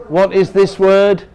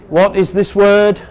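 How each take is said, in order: The two takes are said the same way.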